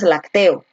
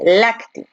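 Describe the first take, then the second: First: The stress falls on a later syllable. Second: The stress falls on the first syllable. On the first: The speaker calls it wrong. "No dices lacteo" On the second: The speaker calls it right. "tú dices lácteo, donde la fuerza de voz está aquí"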